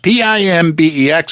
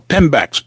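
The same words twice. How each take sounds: First: P I M B E X spelled letter by letter. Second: Said in the usual way. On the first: Shown as a demonstration. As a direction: spell P I M B E X, one letter at a time.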